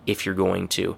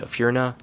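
First: The phrase is said with every word fully pronounced. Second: The phrase is relaxed and collapsed into few syllables. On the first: "compare it to if you're going to" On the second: "you say it in a really relaxed way"

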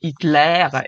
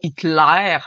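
First: The vowels sound France French. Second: The vowels sound Quebec French. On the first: The speaker calls it right. "mais Hitler" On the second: The speaker calls it wrong. "pas Hitler"

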